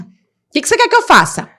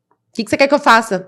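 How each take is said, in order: First: High, pleading outburst at the therapist; exasperated retort. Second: Said in the usual way. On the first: Retold or imitated. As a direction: throw the question back, much higher. (a therapeuta ouve a mãe exasperada, voz bem mais aguda)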